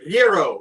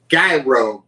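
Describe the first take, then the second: First: The G is silent and the R is rolled. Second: The G is sounded and the R is not rolled. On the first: The speaker calls it right. "In all actuality, it's gyro. G is silent, and you gotta let the R roll" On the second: The speaker calls it wrong. "you may pronounce it gyro"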